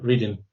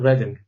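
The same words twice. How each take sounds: First: It is pronounced as the everyday word. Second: It is pronounced as the town name. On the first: A speech program misread the town name. The speaker calls it wrong. "it will tell you reading" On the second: It names the town. The speaker calls it right. "this town called Reading"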